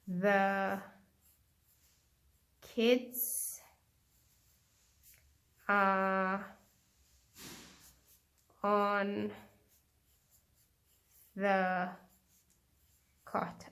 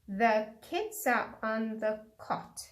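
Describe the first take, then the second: First: The sentence is spoken at a slow pace. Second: The sentence is spoken at a quick pace. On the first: "I'm going to repeat it again slowly" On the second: "I'm going to say it quickly"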